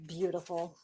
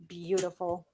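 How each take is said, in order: First: Hushed, lower whisper of Beautiful. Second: Said in the usual way. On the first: Real, not acted. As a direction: breathe Beautiful. out in awe. Admiring card softly.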